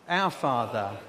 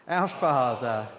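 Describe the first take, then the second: No difference in how they are said.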